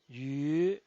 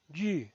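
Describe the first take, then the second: First: The pitch rises from mid to high. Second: The pitch falls from high to low. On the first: "El segundo tono es ascendiente" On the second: "El cuarto tono es un tono bajado"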